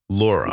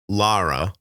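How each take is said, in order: First: The vowel after the L sounds like 'aw'. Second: The vowel after the L sounds like 'ah'. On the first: The speaker calls it right. "That's good" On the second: The speaker calls it wrong. "So not Lara"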